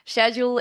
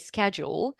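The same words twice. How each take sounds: First: The word is said with a British pronunciation. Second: The word is said with an American pronunciation. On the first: "schedule is typically pronounced in British English" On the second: "Americans tend to say schedule"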